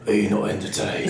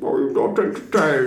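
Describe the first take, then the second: First: It is said in a Batman-like voice. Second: It is said in a Bane-like voice.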